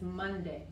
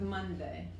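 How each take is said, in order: First: The d is crisp, close to a t. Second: The d is soft, with the tongue out. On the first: The speaker calls it right. "se pronuncia más como la T de español" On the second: The speaker calls it wrong. "no es Monday"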